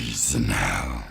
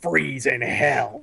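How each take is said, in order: First: Extremely deep, slow fighter voice; exaggerated deep scary impression; Sub-Zero. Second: Slow, drawn-out villain line, lightly imitated; a hint of a deep fighter voice; Sub-Zero. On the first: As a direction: drop to the bottom and drag out each word. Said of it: "it's so deep". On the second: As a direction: stretch out the ice pun like a mock scary fighter. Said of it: "the Sub-Zero voice, it's so deep".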